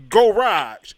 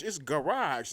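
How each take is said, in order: First: Garage said as go-rahj, mangled; mocking mispronunciation. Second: It's Garage said softly, the right way; correct pronunciation. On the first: Mocking a guy who sounded out Garage. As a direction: sound out Garage wrong on purpose. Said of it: "did you just sound that out". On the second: Shown as a demonstration. Correcting a guy on Garage, softly. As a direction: quietly give the proper Garage. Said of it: "not Garage".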